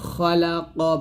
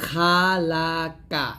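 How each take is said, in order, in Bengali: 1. স্বরগুলো ভরাট ও গাঢ়, 'o'-এর কাছাকাছি। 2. স্বরগুলো সরু ও উজ্জ্বল, 'a'-এর মতো। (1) "বলতে হবে" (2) "এটা বলা যাবে না"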